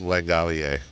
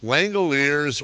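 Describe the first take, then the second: First: It is said the French way, final s silent. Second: It is said the English way, final s sounded.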